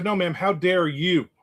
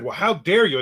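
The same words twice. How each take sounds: First: Slow, deliberate comeback, leaning on how; No, ma'am, how dare you, said slowly and firmly; slow firm retort. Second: Mock offended older woman, lightly voiced; a touch of prim outrage on dare; Well, how dare you, mildly mimicked; indignant lady. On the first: Retold or imitated. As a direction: throw it back slowly, calm but pointed. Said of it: "I said". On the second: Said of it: "And she said".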